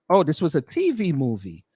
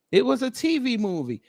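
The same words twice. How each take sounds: First: Said in the usual way. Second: Much higher, incredulous "T V movie"; can't believe it was a "T V movie"; higher mocking disbelief at "T V movie"; amused disbelief. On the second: Real, not acted.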